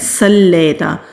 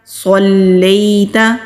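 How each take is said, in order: First: The first S is a plain, light S. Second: The first S is a heavy, emphatic S. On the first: The speaker calls it wrong. "स्वाद को सीन पढ़ते हैं और पढ़ते हैं सल्लैता, तो ये गलत है" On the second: The speaker calls it right. "स्वाद पढ़ेंगे"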